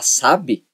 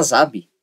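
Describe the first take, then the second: First: Sabe said with a plain s sound; normal s. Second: Sabe said as zabe, with a voiced z; z sound. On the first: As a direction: say sabe with s at the start. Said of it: "Você fala sabe". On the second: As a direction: start sabe with a buzzing z. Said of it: "Em vez de você falar sabe". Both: Shown as a demonstration.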